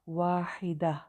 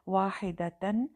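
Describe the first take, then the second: First: The word ends cut short with a silent h. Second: The word ends with the full ending -tan.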